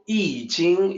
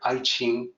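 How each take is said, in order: First: It is said the standard Pinyin way. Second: It is said the common anglicized way. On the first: The speaker calls it right. "I Ching is the way it's pronounced" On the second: The speaker calls it wrong. "that's why we hear Aiqing"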